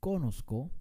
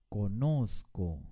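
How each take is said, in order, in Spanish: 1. El acento no está en la sílaba del medio. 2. El acento está en la sílaba del medio. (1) "no pronunciamos conozco" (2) "con mucho énfasis en la penúltima sílaba"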